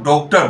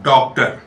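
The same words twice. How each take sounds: First: The first vowel is rounded, close to o. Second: The first vowel falls between aa and o. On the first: The speaker calls it wrong. "Bengal के लोग जो प्राय गोलाकार उच्चारण करते हैं" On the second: The speaker calls it right. "शुद्ध उच्चारण क्या है? आ और ओ के बीच में।"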